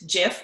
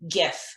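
First: The word begins with a soft J sound. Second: The word begins with a hard G sound. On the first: The speaker calls it wrong. "it isn't Jif" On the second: The speaker calls it right. "hard G"

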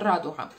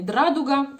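First: The word starts with a clean r. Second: A d sound comes before the r. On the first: The speaker calls it right. "а «радуга»" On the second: The speaker calls it wrong. "не «драдуга»"

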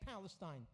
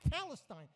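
First: The word begins with a clear P sound. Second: The word begins without a P sound. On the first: "the Palestinians can't even say Palestine" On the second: "Arabs can't pronounce the letter P. They can't say it. They say Palestine"

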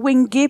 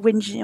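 First: The g is a hard g sound. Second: The g is a soft j sound. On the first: The speaker calls it wrong. "j'ai envie de dire wenge pour le bois" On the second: The speaker calls it right. "je crois que ça se dit wenge, en fait, parce qu'il n'y a pas de U, c'est GE et pas GUE"

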